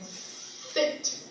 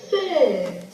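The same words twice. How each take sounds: First: The S sound is drawn out long. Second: The S sound is short and clipped. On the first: The speaker calls it wrong. "prolong that S sound, like sit" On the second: The speaker calls it right. "we would also sing it"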